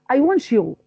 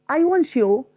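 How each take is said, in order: The two takes are said the same way.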